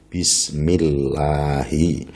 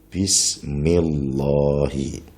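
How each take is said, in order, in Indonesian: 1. Bunyi L dalam Allah itu ringan dan tipis. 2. Bunyi L dalam Allah itu berat dan tebal. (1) "harus dibaca tarqiq" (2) "tidak boleh"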